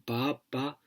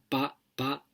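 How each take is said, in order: First: The first vowel is long, the second short. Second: Both vowels are short. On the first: "dando la primera A larga" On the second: "que son dos As breves"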